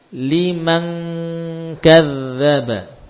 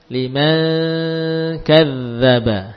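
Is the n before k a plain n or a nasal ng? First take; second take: nasal ng; plain n. First: The n before k is a full nasal ng. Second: The n before k lacks the full nasal ng. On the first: The speaker calls it right. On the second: The speaker calls it wrong.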